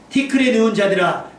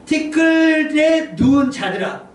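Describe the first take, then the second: First: Steady, declamatory verse reading; scripture reading. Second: High, loud, very slow call; drawn-out proclamation. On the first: Shown as a demonstration. Preacher reading Isaiah to the congregation, declamatory reading. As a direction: read it out firmly at an even pace. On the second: Acted. Preacher calling those turned to dust, drawn-out proclamation. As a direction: summon the dead, stretching each word. Repeats verse after 더 심각합니다, stretched out.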